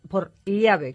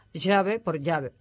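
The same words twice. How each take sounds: First: Put-on "llave" with the old ll sound, tongue side against the palate, not a y; louder "llave" keeping the ll distinct from y; distinguishing ll. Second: "llave" said as "yave", the ll turned into a y sound; slow, careful "llave" pronounced "yave"; yeísmo demo. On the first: Lecturer contrasts the Peninsular ll in "llave". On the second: Lecturer shows listeners Latin American yeísmo: "llave" as "yave". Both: Shown as a demonstration. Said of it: "o el yeísmo".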